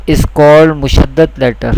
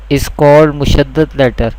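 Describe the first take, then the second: No difference in how they are said.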